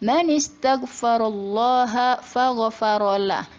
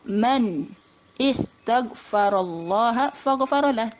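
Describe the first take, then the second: First: The words link with the verb's initial vowel dropped. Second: The verb starts with its own separate vowel. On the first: The speaker calls it right. "tapi dibacanya" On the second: The speaker calls it wrong. "Tidak dibaca"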